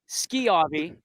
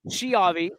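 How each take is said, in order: First: The name begins with a 'sk' sound. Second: The name begins with a 'sh' sound. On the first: The speaker calls it right. "it is indeed B, Skiavi" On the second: The speaker calls it wrong. "people like saying Shiavi"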